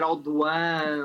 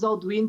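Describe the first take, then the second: First: The name is said with a French pronunciation. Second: The name is said with a Portuguese pronunciation. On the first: "é um nome francês e deve-se pronunciar Aldoan" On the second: "também é muito aportuguesado"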